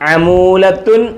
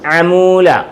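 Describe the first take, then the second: First: The word ends with an added 'tun' syllable. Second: The word ends on a plain 'a' vowel. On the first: The speaker calls it wrong. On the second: The speaker calls it right.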